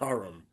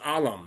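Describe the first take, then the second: First: The middle consonant is an R sound. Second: The middle consonant is an L sound. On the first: The speaker calls it wrong. "not Aram" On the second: The speaker calls it right. "It was Alam"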